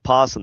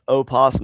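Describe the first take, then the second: First: The word begins directly with the P sound. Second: The word begins with an audible O sound. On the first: The speaker calls it right. "It's still pronounced possum. The O's just silent" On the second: The speaker calls it wrong. "opossum is not pronounced opossum"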